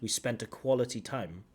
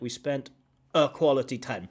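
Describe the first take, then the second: First: The word 'a' is linked onto 'spent'. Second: The word 'a' is grouped with 'quality time'. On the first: The speaker calls it right. "I want that a to be linked to the spent" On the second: The speaker calls it wrong. "It feels like"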